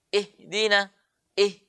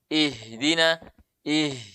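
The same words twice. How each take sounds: First: The breath on the h is held back. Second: The breath on the h flows out freely. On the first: The speaker calls it wrong. "Itu tidak mengalir" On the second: The speaker calls it right. "itu suara mengalir"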